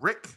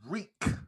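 First: The vowel is short, rhyming with 'sick'. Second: The vowel is long, rhyming with 'seek'. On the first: The speaker calls it wrong. "not Rick" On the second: The speaker calls it right. "That is Reek"

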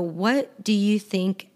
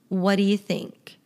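First: Each word is said clearly and in full. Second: The words are shortened and run together.

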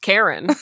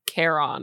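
First: The second syllable has a short, reduced vowel. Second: The second syllable has a long O vowel. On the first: "It's Karen" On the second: "maybe it's a long O sound"

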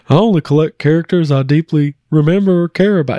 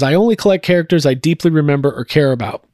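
First: It is read in a Hank Hill impression. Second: It is read in the speaker's normal voice.

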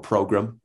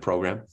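First: The word has an imitated, unusual pronunciation. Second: The word has an ordinary, everyday pronunciation.

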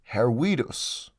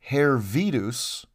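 First: The middle consonant is a W sound. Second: The middle consonant is a V sound. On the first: The speaker calls it right. "It's pronounced as a W" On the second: The speaker calls it wrong. "you wouldn't read it as Hervidus"

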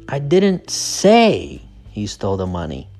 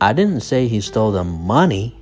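First: The stress is on the word 'say'. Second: The stress is on the word 'money'. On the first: The speaker only suggested it. "So the stress is on say" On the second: He took something other than money. "The stress is on money"

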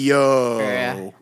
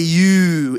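First: The vowel is a big, wide open sound. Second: The vowel is a plain closed 'oo' sound. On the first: The speaker calls it right. "It's got to be yo. You know, the big wide open vowels" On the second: The speaker calls it wrong. "You can't say you"

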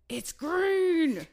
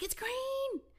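First: It is said with pushy, demanding impatience. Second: It is said with happy, delighted excitement. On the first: The driver should get moving now. "And now it's like" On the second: The light changing is a fun discovery. "it started as excitement"

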